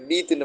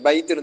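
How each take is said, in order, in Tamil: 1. முதல் உயிர் நீண்ட 'ee'. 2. முதல் உயிர் 'ay' என்ற இரட்டை ஒலி. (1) "பீத்துன்னு வாசிக்கிறல்ல" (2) "பைத்துன்னு தான் வாசிக்கிறது"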